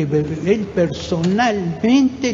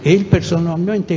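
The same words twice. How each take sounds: First: "él personalmente" drawn out very slowly, each syllable weighted; slow emphatic repeat. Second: Said in the usual way. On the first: Real, not acted. Insisting to everyone present who led the massacre, slow and emphatic. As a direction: stretch "personalmente" long to drive the point home. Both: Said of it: "le digo a todos los que están presentes".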